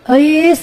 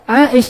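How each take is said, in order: First: It is said Sundanese-style, ending in 's'. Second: It is said Arabic-style, ending in 'sh'.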